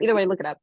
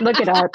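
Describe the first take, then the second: First: Said in the usual way. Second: Louder, punchy look it up; emphatic. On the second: Real, not acted.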